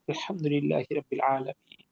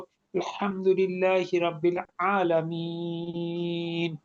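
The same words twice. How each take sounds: First: It is said quickly and quietly, briefly. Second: It is said slowly, with long drawn-out vowels.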